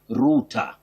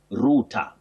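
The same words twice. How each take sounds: First: It is said with a British accent. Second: The same.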